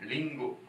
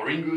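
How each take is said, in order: First: It begins with a light L-like sound. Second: It begins with an English-style R sound. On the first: The speaker calls it right. "c'est la japonaise. Donc lingo, ça se prononce comme un L" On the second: The speaker calls it wrong. "ça ferait un peu à l'anglaise"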